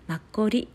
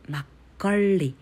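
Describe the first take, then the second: First: The second syllable ends without an L sound. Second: The second syllable ends with a curled L sound. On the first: The speaker calls it wrong. "マッコリではなく" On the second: The speaker calls it right. "下をR、くるりと回す発音が正確な発音です"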